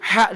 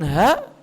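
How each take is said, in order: First: The h is a strong throaty h. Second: The h is a plain light h. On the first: The speaker calls it right. "huruf ha" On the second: The speaker calls it wrong. "dibaca dengan ha"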